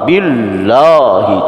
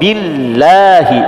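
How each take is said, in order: First: The L is heavy, with a raised, dark sound. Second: The L is light, with a lowered, thin sound. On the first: The speaker calls it wrong. "Tidak lagi billahi" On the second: The speaker calls it right. "tapi billahi, ya. Inilah yang disebut dengan rumus dibaca tipis"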